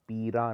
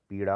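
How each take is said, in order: First: पीरा with plain r; wrong r. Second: पीड़ा with a retroflex flap; correct ड़. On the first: Teacher showing the error, पीरा with plain r. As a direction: say पीरा with tapped r. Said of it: "नहीं होता". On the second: Teacher correcting it, पीड़ा with retroflex sound. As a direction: curl the tongue in पीड़ा. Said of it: "होता है". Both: Shown as a demonstration.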